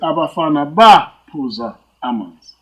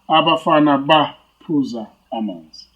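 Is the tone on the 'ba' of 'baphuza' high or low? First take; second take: high; low. First: The tone on 'ba' goes up. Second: The tone on 'ba' stays low. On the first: The boys drank water long ago. "So you see my tone goes up" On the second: The boys are drinking water right now. "in the present tense"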